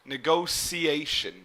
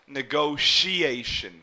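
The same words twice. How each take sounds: First: The middle consonant sounds like an s. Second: The middle consonant sounds like sh. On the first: "where this T here would almost be pronounced like an S or a C" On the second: "like an S H sound here"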